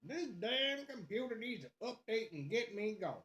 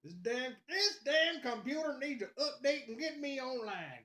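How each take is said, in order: First: Hammed-up southern grumble; southern accent. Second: High-pitched redneck southern gripe; put-on redneck, pitched way up; redneck accent. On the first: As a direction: gripe in a put-on southern accent. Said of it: "break out my southern accent". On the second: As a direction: complain in a hammed-up southern accent. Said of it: "my redneck's on point".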